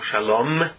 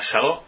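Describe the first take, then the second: First: The word ends with an m sound. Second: The word is cut off before its end. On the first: The sacred word itself is spoken. The speaker calls it wrong. "não Shalom, com M no final" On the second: The sacred word itself is avoided. The speaker calls it right. "sem terminar a palavra"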